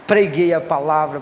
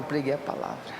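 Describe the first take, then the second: First: Proclaimed loud. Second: Dropped to a hush. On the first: Preacher recalls father's funeral sermon. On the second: Echo of the same phrase. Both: Acted.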